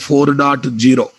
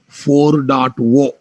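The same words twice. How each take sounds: First: The final digit is said as zero. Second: The final digit is said as oh. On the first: This is how Indian speakers usually say it. "We as an Indian, we study it a four point zero" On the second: This is how the software industry and US speakers say it. "in software industry, they pronounce it as"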